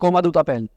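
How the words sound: It sounds flatly read out with a Hindi accent. The speaker calls it wrong. "अब ये हिंदी लग रहा है ना, ये ऐसा लग रहा है कोई हिंदी पढ़ के बोल रहा है"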